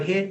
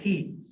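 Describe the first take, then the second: First: The vowel is a short 'ih' sound. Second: The vowel is a long 'ee' sound. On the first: This is the general English pronunciation. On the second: This is the Spanish influenced English pronunciation.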